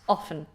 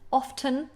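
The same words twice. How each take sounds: First: The T sound is left out. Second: The T sound is clearly pronounced. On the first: "most natives now say often without the T" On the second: "You can pronounce the T"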